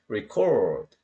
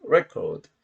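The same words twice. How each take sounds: First: Record as verb, re-CORD, drawn out; second-syllable stress. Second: Record as noun, REC-ord; first-syllable stress. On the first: Teacher contrasting verb with noun, re-CORD. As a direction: stretch the last syllable of record. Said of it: "동사로 쓰이는 거죠". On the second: Teacher contrasting noun with verb, REC-ord. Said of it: "강세가 이름절에 있어요". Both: Shown as a demonstration.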